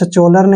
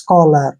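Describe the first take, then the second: First: The middle consonant is a ch sound. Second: The middle consonant is a k sound. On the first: The speaker calls it wrong. "इसको सचोलर नहीं पढ़ना है" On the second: The speaker calls it right. "C H को हमने कै पढ़ना है"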